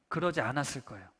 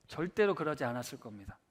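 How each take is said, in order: First: Said in the usual way. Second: 절대로 stressed as the key word, quiet falling close. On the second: Shown as a demonstration. Preacher insisting James would never complain, stressing 절대로. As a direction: lean hard on 절대로, low and firm.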